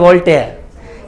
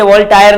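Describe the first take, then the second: First: The second syllable sounds like 'tare'. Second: The second syllable sounds like 'tire'. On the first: The speaker calls it right. "वोल्टेयर ही है real में" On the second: The speaker calls it wrong. "वोल्टायर नहीं"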